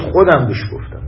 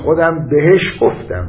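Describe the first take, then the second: First: The stress falls on the first word. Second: The stress falls on the middle word. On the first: It matters who did the telling. "یه وقت موضوعتون میگه کی بهش گفت، ... یعنی من" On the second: It matters who was told. "یه وقت موضوع اینه به کی گفت، ... بهش تأکید میکنه"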